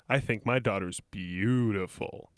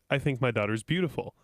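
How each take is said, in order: First: It is said in a creepy, suggestive way. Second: It is said in a plain, sincere way.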